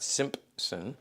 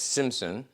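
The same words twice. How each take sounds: First: The name is said with a p sound. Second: The name is said without a p sound. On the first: The speaker calls it wrong. "not Simpson" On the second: The speaker calls it right. "there's no P in Simpson, so it's Simpson"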